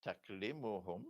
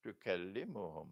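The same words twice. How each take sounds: First: "taklimuhum" with k closed straight onto l; first reading, taklimuhum. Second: "tukallimuhum" with a vowel after k and doubled l; second reading, tukallimuhum. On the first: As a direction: say "taklimuhum" as tak-LEE-mu-hum. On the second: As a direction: say "tukallimuhum" as tu-KAL-li-mu-hum. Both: Shown as a demonstration. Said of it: "Which one is it?".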